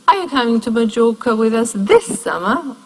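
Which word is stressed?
this. The strongest stress falls on this. This summer is contrasted with next summer. "or next?"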